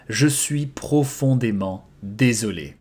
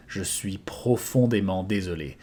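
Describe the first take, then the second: First: "Je suis profondément désolé" spoken slowly and clearly; slow model repetition. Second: Said in the usual way. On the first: Shown as a demonstration. Teacher repeating the phrase slowly for students, slow. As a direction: draw it out for the learner. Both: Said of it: "I am deeply sorry".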